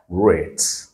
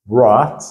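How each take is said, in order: First: "rate" with the English ay vowel; long A. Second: "rot" said as rat with an open ah; short French-like a in "rot". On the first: Teacher drills the long sound, ay in "rate". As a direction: say "rate" like the letter name A. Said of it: "c'est son son qui est long". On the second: Teacher drills the short sound, open a in "rot". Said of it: "c'est le son qui est court". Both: Shown as a demonstration.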